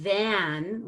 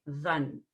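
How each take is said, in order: First: THAN with a wide, effortful "a" as in cat; full A. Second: THAN weakened to "thun", lower pitch; reduced vowel. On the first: Teacher shows the effortful word, full-vowel THAN. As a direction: open THAN up fully. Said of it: "a lot of effort to make that A". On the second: Teacher shows the easy word, reduced low THAN. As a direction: relax THAN to a lazy schwa. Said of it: "we're just gonna say". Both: Shown as a demonstration.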